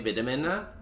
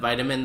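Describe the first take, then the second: First: The word is pronounced in an odd way. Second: The word is pronounced in the usual way. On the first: The speaker calls it wrong. "they would always say vitamin" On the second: The speaker calls it right. "Instead of vitamin"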